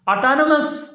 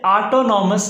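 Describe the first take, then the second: First: The third syllable's vowel is reduced. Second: The third syllable has a full 'o' vowel. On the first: The speaker calls it right. "इसकी जो सही pronunciation है वो है ऑटोनमस" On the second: The speaker calls it wrong. "ऑटोनॉमस पढ़ना बिल्कुल गलत है"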